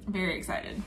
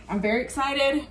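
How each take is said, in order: First: Very excited dropped much softer, almost to herself; quiet repeat. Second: Bright, eager, leaning on excited. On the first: Repeating her excitement to viewers, suddenly much softer. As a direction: echo it under your breath. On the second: Telling viewers about her hair day, eagerly excited. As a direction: sell the excitement to the camera. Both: Real, not acted.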